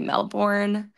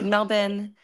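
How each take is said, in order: First: It is said with an American pronunciation. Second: It is said with an Australian pronunciation. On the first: "which Americans would say Melbourne" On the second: "but here it's Melbourne"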